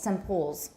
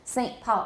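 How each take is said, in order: First: Saint ends in an m sound before Paul. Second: Saint has a glottal stop, no m sound. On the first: "simpoles in British English" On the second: "I may have a glottal stop. Saint, Saint, but I don't have an N"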